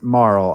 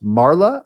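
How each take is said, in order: First: The name ends on a plain L sound. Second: The name ends with an added 'ah' sound. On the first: The speaker calls it right. "I also pronounce it Marl" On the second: The speaker calls it wrong. "I've heard it pronounced Marla"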